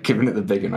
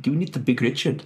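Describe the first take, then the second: First: Said in the usual way. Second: Put-on quick South African accent, pitched up. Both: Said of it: "when said in a South African accent".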